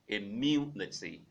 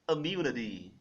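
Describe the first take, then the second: First: It is said in a standard British accent. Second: It is said in a General American accent. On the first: "the main option, or the first option rather" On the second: "In G A English, we pronounce as immunity"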